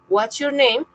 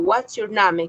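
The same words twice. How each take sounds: First: It is said with a native English pronunciation. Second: It is said with a Spanish-influenced pronunciation. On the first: The speaker calls it right. "cuando un nativo venga y me diga" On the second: The speaker calls it wrong. "que es una interferencia lingüística típica"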